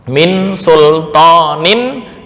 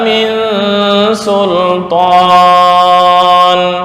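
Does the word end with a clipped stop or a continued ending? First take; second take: continued ending; clipped stop. First: The word ends with an added -in ending. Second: The word ends clipped, without a final vowel.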